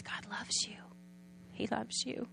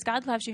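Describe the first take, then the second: First: Softly whispered, tender and close; a hushed, loving whisper; whispered comfort. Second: Said in the usual way. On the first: Retold or imitated. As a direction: whisper it into her ear to comfort her. Giver comforting the crying mother.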